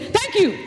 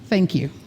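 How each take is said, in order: First: It is said powerfully on an in-breath. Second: It is said softly on an out-breath.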